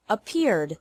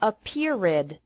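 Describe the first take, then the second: First: "appeared" said in two syllables, ending in a plain D with no extra syllable; "appeared" as a-PEERD, the ED just a D sound; correct two syllables. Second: "appeared" said wrongly in three syllables, with the ED as an extra "id"; "appeared" as a-PEER-id, the wrong three-syllable way. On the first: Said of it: "appeared also has two syllables". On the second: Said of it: "Don't pronounce it". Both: Shown as a demonstration.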